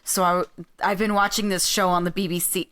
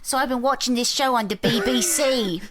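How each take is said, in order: First: It is said in a non-British accent. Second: It is said in a put-on British accent.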